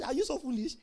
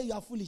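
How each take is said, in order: First: "Are you so foolish?" put as a soft question; posed as a question. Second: "You are foolish" lower and softer, as a statement; flat-out statement. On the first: Preacher showing what Paul really asked, as a question. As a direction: ask "Are you so foolish?" rather than accuse. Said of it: "It's a question". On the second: Preacher showing what Paul did not say, as a statement. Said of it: "Paul did not say". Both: Shown as a demonstration.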